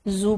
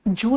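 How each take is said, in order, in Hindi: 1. यह शब्द z ध्वनि से शुरू होता है। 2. यह शब्द j ध्वनि से शुरू होता है। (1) "जू बोलना" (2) "जू नहीं बोलना"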